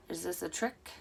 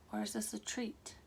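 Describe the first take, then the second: First: Said in the usual way. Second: Whispered, breathy tease; teasing whisper. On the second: Acted. Reader teases viewers in a spooky whisper. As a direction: drop to a secretive whisper on treat.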